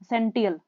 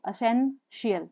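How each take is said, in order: First: The ending is said with a 't' sound. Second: The ending is said with a 'sh' sound. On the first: The speaker calls it wrong. "अब इसको हम बोल देते हैं टी I L को टीएल" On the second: The speaker calls it right. "शियल बोलना है इसको"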